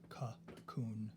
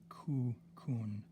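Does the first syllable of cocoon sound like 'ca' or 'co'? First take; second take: ca; co. First: The first vowel sounds like an A. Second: The first vowel sounds like an O. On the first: The speaker calls it wrong. "I pronounce the first O as an A" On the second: The speaker calls it right. "It actually should be cocoon"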